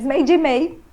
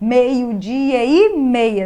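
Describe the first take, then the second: First: The final vowels are dropped, words run together. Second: The final vowels of each word are clearly pronounced.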